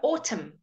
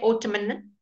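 First: It ends on the m sound, no n. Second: An n sound is heard after the m. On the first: The speaker calls it right. "we don't say the N" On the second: The speaker calls it wrong. "we don't say autumn"

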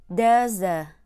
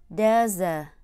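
The two takes are said the same way.

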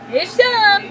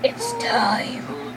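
First: The voice sounds light and mild. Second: The voice sounds dark and menacing. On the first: The speaker calls it right. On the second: The speaker calls it wrong.

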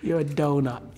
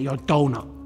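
First: It sounds affectionate and teasing. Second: It sounds insulting and dismissive.

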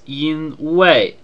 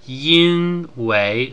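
First: The second syllable has a falling tone. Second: The second syllable has a rising tone. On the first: This is how it is said in Taiwan. "in Taiwan they pronounce this yīnwéi, with the second character being the fourth tone" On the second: This is how it is said in mainland China. "in mainland China they tend to pronounce it more yīnwéi"

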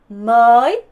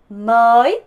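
Both takes have the same delivery.

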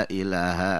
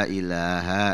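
No difference in how they are said.

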